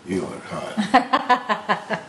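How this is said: It is said in a low, seductive voice. "his come hither voice"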